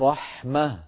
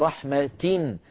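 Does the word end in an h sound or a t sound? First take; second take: h sound; t sound. First: The word ends in an h sound. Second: The word ends in a t sound with i. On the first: The reciter stops on this word. "فإن وقفنا نقول فبما رحمة" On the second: The reciter continues past this word. "في الوسط قلنا رحمة تن تاء مكسورة"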